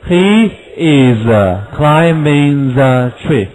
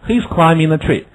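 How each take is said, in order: First: Slow, he is kept apart; full he is, unhurried; slow full form. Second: Said in the usual way. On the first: Shown as a demonstration. Teacher gives the full form before he's. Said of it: "留了一点".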